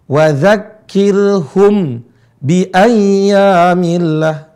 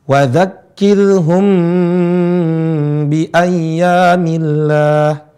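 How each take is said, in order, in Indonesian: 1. Huruf m dilepas terbuka sebelum b. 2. Huruf m ditahan sengau sampai ke b. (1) "Bukan dibuka" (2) "ditahan dua harokat"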